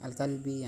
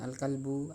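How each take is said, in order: First: The word ends in an i vowel. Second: The word ends in a u vowel.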